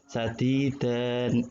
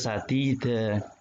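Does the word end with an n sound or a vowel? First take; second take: n sound; vowel. First: The word ends with a final n sound. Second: The word ends on a long open vowel. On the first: This is the written form with tanwin. "Sadidan, sadidan gitu ya Pak tulisannya" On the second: This is how it is read when pausing. "Tapi dibaca sadida itu"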